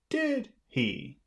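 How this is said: The tag question sounds confident and assured. The speaker expects the listener to agree. "if you want to sound confident"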